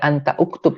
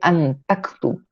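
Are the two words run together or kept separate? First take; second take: separate; run together. First: The two words are kept separate, hamza pronounced. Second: The words are run together, hamza dropped. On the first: The speaker calls it wrong. "Bukan anta uktub" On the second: The speaker calls it right. "tapi antaktub"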